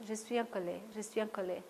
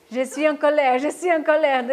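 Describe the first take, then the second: First: Soft, low-key repetition of the anger phrase; quiet repeated anger phrase. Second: Louder, emphatic repetition of je suis en colère; loud demo of anger. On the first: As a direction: murmur the phrase twice, barely voiced. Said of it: "insister sur cette colère". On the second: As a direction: say it out loud, as if angry in the staff room. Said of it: "Maintenant, je vais vous montrer". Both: Shown as a demonstration.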